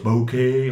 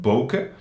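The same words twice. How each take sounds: First: The final vowel is drawn out long. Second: The final vowel is short. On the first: The speaker calls it wrong. "omdat er een H achter staat" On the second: The speaker calls it right. "maar de korte E"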